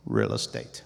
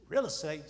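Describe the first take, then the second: First: Much lower, firm divine voice; deep, calm voice from above; God answering plainly. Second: Much higher, disbelieving question; incredulous. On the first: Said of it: "And then I heard it again". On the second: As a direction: typical Israelite doubting God. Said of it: "typical Israelite". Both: Retold or imitated.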